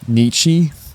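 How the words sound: The name is said the American way. This is how Americans usually say it. "They're more inclined to say um, Nietzsche"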